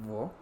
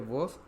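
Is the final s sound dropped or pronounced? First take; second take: dropped; pronounced. First: The final s sound is dropped. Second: The final s sound is pronounced.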